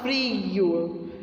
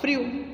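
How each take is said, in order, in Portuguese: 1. A vogal é alongada, longa. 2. A vogal é curta e rápida. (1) "tem mania de prolongar a vogal" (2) "Eles falam frio"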